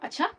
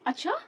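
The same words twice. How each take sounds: First: The word is said in an angry tone. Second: The word is said in a surprised tone. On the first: The speaker is upset about it. "मतलब मैं गुस्सा होके बोल रही हूँ" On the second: The speaker is amazed that this happened. "मतलब मैं आश्चर्य कर रही हूँ कि अच्छा क्या हुआ?"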